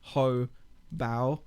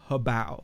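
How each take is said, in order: First: The first part is said separately from the rest. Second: The name is said smoothly as one word. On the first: It sounds like a rude command. The speaker calls it wrong. "don't pronounce the first section separately because it could just be sounding a little bit rude" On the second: It is just the brand name. The speaker calls it right. "It's Hobao"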